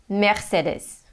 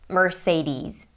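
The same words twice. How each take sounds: First: It is said with a German pronunciation. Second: It is said with an American pronunciation. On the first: "I'm going to try to say it in German" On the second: "in the U S they say"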